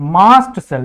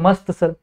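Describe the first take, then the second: First: The first word has a long 'aa' vowel. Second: The first word sounds like Hindi 'mast'. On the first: This is the actual pronunciation of the term. "इसका pronunciation actual में मास्ट cell है" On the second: This follows the spelling to help remember it. "या फिर आप बोल दो मस्त cell"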